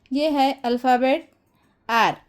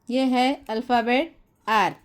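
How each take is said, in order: Both takes have the same delivery.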